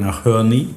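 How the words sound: It is said in an American accent.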